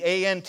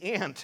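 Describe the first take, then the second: First: It is spelled out letter by letter. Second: It is said as one word, ant.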